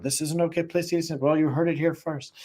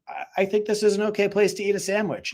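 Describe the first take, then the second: First: Fast, higher mock TikTok host; hammed-up video host voice, quick and higher; mock presenter. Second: High, deadpan innocent excuse; mock-innocent, much higher voice; innocent reply. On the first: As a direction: rattle it off to camera like a host. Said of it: "And he goes around the car and shows it". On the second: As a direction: act totally innocent about the sandwich. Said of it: "And I was like".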